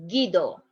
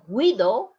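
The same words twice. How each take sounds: First: The first consonant is a hard g sound. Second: The first consonant sounds like a breathy h. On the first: The speaker calls it right. "is Guido" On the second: The speaker calls it wrong. "is not Guido"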